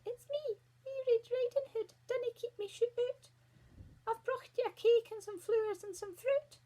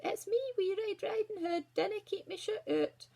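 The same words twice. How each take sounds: First: Very high put-on girly squeak; wee squeaky voice. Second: Put-on high little-girl voice; wee girl. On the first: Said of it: "put on a wee squeaky voice". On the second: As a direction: pipe up as a small girl. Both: A narrator's reading.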